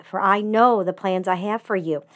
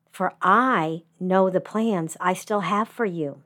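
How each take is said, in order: First: "know" pressed the hardest, falling after it; stress on know. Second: "I" set apart and pressed, the rest falling away; stress on I. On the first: Preacher quoting the familiar verse, stress on "know". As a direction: lean on "know" as most readers do. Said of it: "always heard the emphasis put on the word "know". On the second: Preacher rereading the verse to the bereaved, stress on "I". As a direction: lean on "I", so God himself speaks it. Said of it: "putting the emphasis on a different word each time". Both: Shown as a demonstration.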